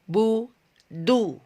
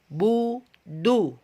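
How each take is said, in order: No difference in how they are said.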